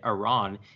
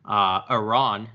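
First: Iran is said with the pronunciation the speaker accepts. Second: Iran is said with the pronunciation the speaker rejects. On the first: The speaker calls it right. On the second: The speaker calls it wrong.

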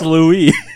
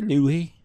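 First: The final s is clearly pronounced. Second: The final s is silent, French style. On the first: This is how the name is said locally. "We pronounce our S's here in Arkansas. It's Louis" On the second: This is how the name would be said in France. "If we were in France, maybe Louis"

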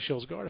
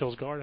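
First: The name is said with Swedish sounds. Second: The name is said with English sounds. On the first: The speaker calls it right. "if you do the Swedish pronunciation" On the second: The speaker calls it wrong. "as I pronounce Kilsgaard"

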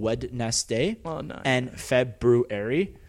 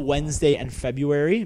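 First: The words are said slowly, syllable by syllable. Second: The words are said at normal conversational speed.

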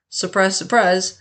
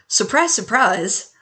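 First: It is said in a sarcastic tone. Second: It is said in a sincere tone. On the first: The outcome was entirely predictable. The speaker calls it wrong. "I didn't mean to sound quite so sarcastic" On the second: The outcome is genuinely unexpected. The speaker calls it right. "let's try this again"

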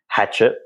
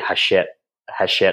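First: The name is said with an English pronunciation. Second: The name is said with a French pronunciation. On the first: The speaker calls it wrong. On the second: The speaker calls it right.

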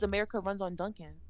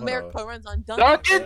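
First: It is said at normal conversational volume. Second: It is said louder than normal conversation.

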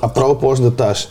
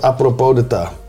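First: The last word ends with a pronounced s sound. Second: The last word ends without any s sound. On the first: "als je het gewoon zou uitspreken in Nederlandse uitspraak" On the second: "volgens mij is het apropos de ta"

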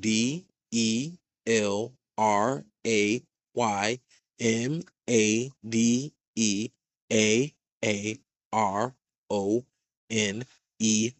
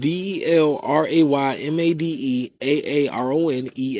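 First: The letters are spelled out slowly. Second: The letters are spelled out quickly.

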